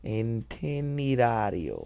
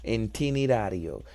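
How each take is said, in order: First: Itinerario said slowly, drawn out; slow careful repeat; slower Italian repeat. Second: Itinerario sounded out after the app; careful Italian repeat. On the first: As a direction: stretch out itinerario. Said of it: "saying it slower". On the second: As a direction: echo itinerario syllable by syllable. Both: Shown as a demonstration.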